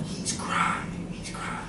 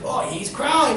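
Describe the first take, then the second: First: Hushed, voiceless whisper; whispered guess. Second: High, exclaimed discovery; delighted reaction. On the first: Students guessing the acted word, whispering. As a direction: whisper it like unsure pupils. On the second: Teacher echoing the students' guess, excited. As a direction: seize on the guess with big approval. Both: Acted.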